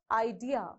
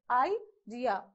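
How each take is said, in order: First: IDEA as one word, weight on DEA; stress on second syllable. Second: Idea broken into two beats, i, dea; split into syllables. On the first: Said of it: "on the second syllable". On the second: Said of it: "we have two syllables here". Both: Shown as a demonstration.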